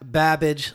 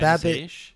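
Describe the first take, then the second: First: The name ends rhyming with 'cabbage'. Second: The name ends rhyming with 'bish'. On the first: The speaker calls it wrong. "Not Babish like cabbage" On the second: The speaker calls it right. "Like Bish? Yeah, Babish"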